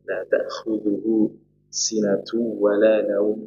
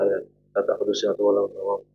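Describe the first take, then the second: First: It is recited slowly with careful articulation. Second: It is recited quickly and casually. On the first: The speaker calls it right. "ayat kursi ditajwidkan" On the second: The speaker calls it wrong. "nggak sekedar"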